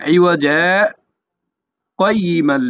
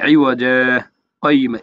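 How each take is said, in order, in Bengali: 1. 'iwaja'-র পরে একটা ধরে রাখা বিরতি আছে। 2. শব্দগুলো একটানা চলে, কোনো ধরে রাখা বিরতি নেই। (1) "দুই সেকেন্ড অপেক্ষা করে পরের শব্দের সহিত মিলাইয়া পড়তে হবে" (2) "এভাবে বলা যাবে না"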